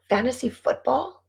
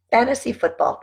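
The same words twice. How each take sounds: First: "Fantasy football?" asked with a rising tune; questioning tune. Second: "Fantasy football." stated with a falling tune; settled statement. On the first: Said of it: "what were we talking about?". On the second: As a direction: confirm it, dropping on "football". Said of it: "That's what we were talking about". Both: Real, not acted.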